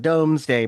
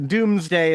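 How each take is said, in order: First: The first syllable sounds like 'dome'. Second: The first syllable sounds like 'doom'. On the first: This is the current name, easier to say. "is called the Domesday Project because it's easier to say" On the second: This is the older, historical pronunciation. "Doomsday is how it would pronounce back in the day"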